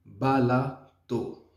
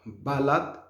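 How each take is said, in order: First: Slow "balato" with the last vowel as "oo"; correct final O. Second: "balade" ending on a bare T, ba-LAT; wrong, O dropped. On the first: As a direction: say "balato" slowly as ba-LA-too. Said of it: "on dit balato". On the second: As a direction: say "balade" as two syllables, ba-LAT. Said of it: "On dit pas balade". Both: Shown as a demonstration.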